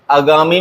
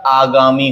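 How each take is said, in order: First: आगामी said as 'a-gaamee'; wrong short start. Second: आगामी said as 'aa-gaamee'; correct long start. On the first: Teacher rejects a common error, आगामी with short first a. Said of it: "नहीं होता". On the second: Teacher gives the correction, आगामी with long first aa. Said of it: "होता है". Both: Shown as a demonstration.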